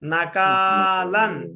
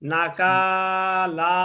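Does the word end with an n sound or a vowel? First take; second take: n sound; vowel. First: The word ends with an n sound. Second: The word ends on an open vowel. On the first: The reading continues without a stop. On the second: The reader stops on this word.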